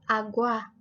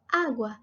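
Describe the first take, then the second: First: The stress is on the second syllable. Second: The stress is on the first syllable. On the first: The speaker calls it wrong. "y no agua" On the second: The speaker calls it right. "decimos agua"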